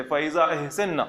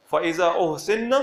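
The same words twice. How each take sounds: First: أَحْسَنَّ said as ah-SAN-na, both vowels a; fa-idhaa ah-san-na, the active form; active reading. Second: أُحْسِنَّ said as uh-SIN-na, u then i; fa-idhaa uh-sin-na, the passive form; passive reading. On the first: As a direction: read أَحْسَنَّ with open a sounds, doubled n. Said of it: "اگر ہم اس کو یوں پڑھتے". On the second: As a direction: read أُحْسِنَّ with short u and i, doubled n. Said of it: "یہ passive voice میں ہے". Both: Shown as a demonstration.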